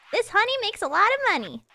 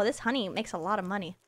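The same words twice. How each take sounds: First: Excited. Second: Soft, low muttered realization; quiet. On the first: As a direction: announce it with delight. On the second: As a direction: say it under your breath. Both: Shown as a demonstration.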